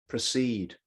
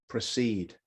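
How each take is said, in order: No difference in how they are said.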